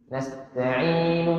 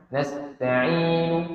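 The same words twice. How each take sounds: No difference in how they are said.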